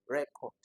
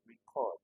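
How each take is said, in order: First: The stress is on the first syllable. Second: The stress is on the second syllable. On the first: It is a noun, a thing. "if you are calling this as a noun" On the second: It is a verb, an action. "which puts the stress on the second syllable? It is a verb"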